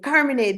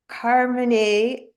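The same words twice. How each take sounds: First: The name is said with Italian pronunciation. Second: The name is said with English pronunciation.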